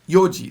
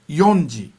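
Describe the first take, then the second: First: No n sound comes before ji. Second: An n sound comes before ji. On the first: The speaker calls it right. "The un is always missing" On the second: The speaker calls it wrong. "it's never yonji"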